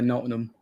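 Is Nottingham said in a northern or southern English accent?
northern. Northern English accent, with the T dropped. "further up north and they'd say"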